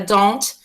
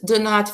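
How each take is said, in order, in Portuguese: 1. É dito como uma palavra só, contraída. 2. É dito como duas palavras separadas, completas.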